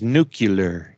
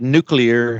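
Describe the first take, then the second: First: It is said the mangled way, 'nucular'. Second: It is said the standard way, 'nuclear'. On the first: "he pronounces as nuclear" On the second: "the word nuclear"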